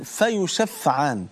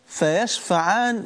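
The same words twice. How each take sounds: First: فيشفعان very slow, settling down in a fall; stretched فيشفعان with a final falling tone; slow falling repeat. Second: Very slow, stretched فيشفعان, voice lifted; slow stretched فيشفعان, rising emphasis; drawn out emphasis. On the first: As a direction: let فيشفعان sink slowly to a close. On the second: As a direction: draw out فيشفعان slowly, lifting it. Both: Shown as a demonstration.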